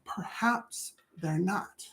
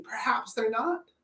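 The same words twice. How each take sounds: First: Slow hushed whisper of Perhaps they're not; whispered, slow, soft. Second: Said in the usual way. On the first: Shown as a demonstration. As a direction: breathe it like a secret, drawn out. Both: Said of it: "repeat as whisper".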